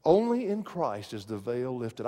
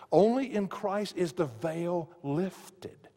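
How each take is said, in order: First: Said in the usual way. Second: "Only in Christ is the veil lifted" drawn out slowly, every word weighed; slow it right down and lean on "Only"; slow emphatic repeat. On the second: Shown as a demonstration. Preacher repeats key line slowly.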